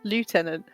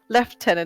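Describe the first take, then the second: First: The word uses the non-British pronunciation. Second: The word uses the British pronunciation. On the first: It is the proper form. The speaker calls it right. "pronounce it properly" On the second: It is the simplified form. The speaker calls it wrong. "It's only the U K that pronounced it like that"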